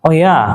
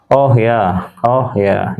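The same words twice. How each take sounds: First: "Oh ya" swung high with rising interest; "Oh ya" said higher, as an interested question; rising intonation. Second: "Oh ya" gliding down from high to low; "Oh ya" settling downward, as if already known; falling intonation. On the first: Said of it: "ketika with ascending intonation, naik". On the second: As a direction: confirm it with a falling "Oh ya". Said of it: "intonasi yang turun dari high to low". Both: Shown as a demonstration.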